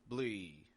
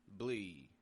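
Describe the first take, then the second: Both takes have the same delivery.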